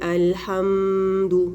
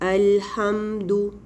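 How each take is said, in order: First: The m sound is stretched out with extra nasality. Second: The m sound is held for a moderate time. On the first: The speaker calls it wrong. "लेकिन इतना लंबा नहीं करना" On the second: The speaker calls it right. "इतना टाइम आपने उसको देना है"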